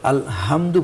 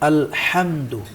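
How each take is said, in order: First: The h is a plain, light breathy sound. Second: The h is pressed deep from the throat. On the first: The speaker calls it wrong. "অর্থের কিন্তু পরিবর্তন হয়" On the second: The speaker calls it right. "গলার চেপে আমরা কিন্তু উচ্চারণ করলাম"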